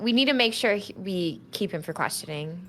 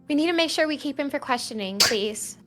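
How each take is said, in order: First: It is said in a plain, ordinary voice. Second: It is said in Ren's character voice.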